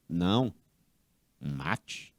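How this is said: There is a pause between the two words. No, kill.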